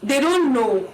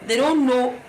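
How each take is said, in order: Both takes have the same delivery.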